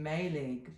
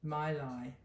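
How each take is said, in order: First: It is said as spelled, like 'May-leg'. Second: It is said like 'My-lie'. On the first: The speaker calls it wrong. "it's written Mayleg" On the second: The speaker calls it right. "actually you pronounce it Mylai"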